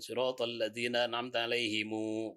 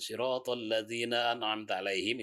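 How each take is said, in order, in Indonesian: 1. Kata terakhir berakhir dengan vokal u tambahan. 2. Kata terakhir berakhir dengan bunyi m tertutup. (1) "kalau Qalun" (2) "itu yang biasa"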